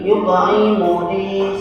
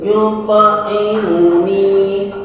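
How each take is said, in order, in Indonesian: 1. Vokal panjang ditahan selama satu ketukan. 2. Vokal panjang ditahan lebih dari satu ketukan. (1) "niki satu ketukan" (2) "bukan yut'imuni"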